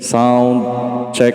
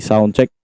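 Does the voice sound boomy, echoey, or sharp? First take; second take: echoey; boomy. First: The voice has heavy echoing reverb on it. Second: The voice has boosted bass and sounds boomy. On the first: "Pag naka full volume, yung reverb" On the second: "Pag dinaas natin, ganyan yung mangyayari"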